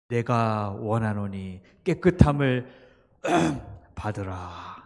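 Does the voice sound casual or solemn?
solemn. It is said in a grave, solemn voice. The speaker calls it right. "이렇게 근엄한 목소리를 하시면"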